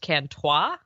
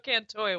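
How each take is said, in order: First: The ending is pronounced in a French style. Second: The ending is pronounced in a plain English style. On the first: This is how the reader imagined it. The speaker calls it wrong. "I read it in my head as Cantois ... the French old god" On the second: This is the official audiobook pronunciation. The speaker calls it right. "So Cantoy was very helpful"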